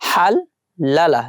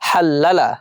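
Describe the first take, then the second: First: The word is said slowly, split into parts. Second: The word is said quickly, as one unit.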